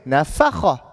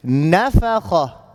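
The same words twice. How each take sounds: First: NaFAkha, stress shifted onto the middle syllable; misplaced stress. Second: NAfakha, first syllable stressed and drawn out. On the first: Teacher shows what not to say, naFAkha stressed mid-word. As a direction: wrongly punch the FA in nafakha. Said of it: "Not saying nafakha". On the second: Teacher models emphasis on the first letter, NAfakha stressed up front. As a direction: lean on the opening NA of nafakha. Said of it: "apply emphasis on the first letter". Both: Shown as a demonstration.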